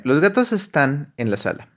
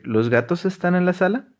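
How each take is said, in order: First: Said in the usual way. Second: "¿Los gatos están en la sala?" with the pitch rising up on "sala"; question rise. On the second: Shown as a demonstration. Teacher showing a Spanish question by rising on "sala". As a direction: lift "sala" into a clear question tune. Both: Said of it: "Yo podría nada más decir".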